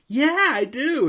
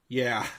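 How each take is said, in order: First: It sounds eager and enthusiastic. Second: It sounds flat and indifferent.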